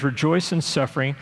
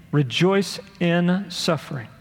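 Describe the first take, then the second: First: Said in the usual way. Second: "in" picked out slowly between "Rejoice" and "suffering"; stress on IN. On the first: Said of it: "look at this little middle word". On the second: Shown as a demonstration. Preacher shows the congregation the key middle word, stressing "in". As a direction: lean deliberately on the middle word "in". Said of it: "look at this little middle word, in".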